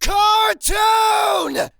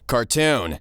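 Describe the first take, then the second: First: It is said very loudly. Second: It is said at a normal, quiet volume.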